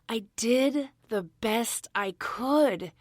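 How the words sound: It is said with some feeling.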